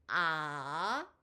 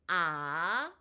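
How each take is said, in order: Both takes have the same delivery.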